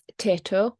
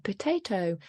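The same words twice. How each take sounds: First: The word is said in a shortened form. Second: The word is said in full. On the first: The speaker calls it wrong. "if a child says potato" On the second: The speaker calls it right. "model the correct pronunciation"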